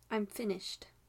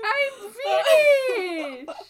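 First: It is said in a flat monotone. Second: It is said expressively in Heimlich's voice.

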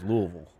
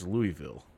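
First: The name is said in the local way. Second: The name is said in the outsider way. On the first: It is how people who live there say the name. "Down there, it's Louisville" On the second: It is how the name is said when reading it or talking about the city. "if you're talking about Louisville or reading Louisville, it's Louisville"

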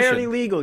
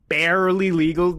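First: The word barely has light, ordinary emphasis. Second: The word barely has strong, heavy emphasis. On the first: The person could be well over the age limit. "if you were just like barely legal" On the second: The person has only just reached the age limit. "I don't like how much you emphasized barely"

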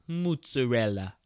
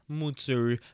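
First: It is said with an exaggerated Italian accent. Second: It is said plainly, without an Italian accent.

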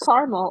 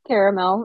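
First: The word is said in a plain, everyday pronunciation. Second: The word is said in a fancier pronunciation.

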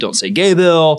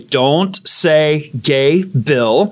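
First: The phrase is rushed through quickly. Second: The phrase is said slowly and deliberately. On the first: "you say it so fast" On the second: "I'll say it slowly"

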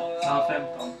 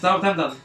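First: It is said slowly. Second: It is said fast.

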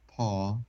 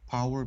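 First: The vowel is flattened into one long vowel. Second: The vowel glides through three vowel qualities. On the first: "They say just like power become paw" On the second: "That's the word that have our triphthong"

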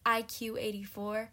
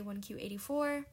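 First: The first character is said as the letter I. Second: The first character is said as the number one. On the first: The speaker calls it wrong. "I'm always saying IQ84" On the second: The speaker calls it right. "I'm just going to say 1Q84"

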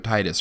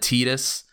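First: The first syllable sounds like 'tie'. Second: The first syllable sounds like 'tee'. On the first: The speaker calls it right. "which is spelled T-I-D-U-S, so Tidus, right?" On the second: The speaker calls it wrong. "I've heard it said Tidus, and I think that is real dumb"

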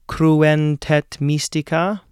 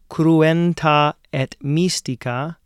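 First: The two meeting vowels merge into one. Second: The two meeting vowels are said separately.

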